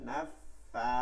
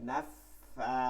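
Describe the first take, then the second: No difference in how they are said.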